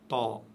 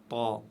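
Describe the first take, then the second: The two takes are said the same way.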